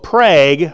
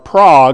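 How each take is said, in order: First: The name is said in a plain everyday way. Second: The name is said in a refined, affected way.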